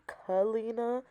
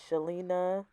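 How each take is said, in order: First: The name begins with a 'k' sound. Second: The name begins with an 'sh' sound. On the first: The speaker calls it right. "It's definitely Kalina" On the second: The speaker calls it wrong. "It is not Shalina"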